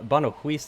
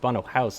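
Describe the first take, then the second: First: The second word does not sound like 'house'. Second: The second word sounds like English 'house'. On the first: The speaker calls it wrong. "I've been saying uh, Bono Huis this whole time" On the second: The speaker calls it right. "is how the Dutch pr- pronounce it"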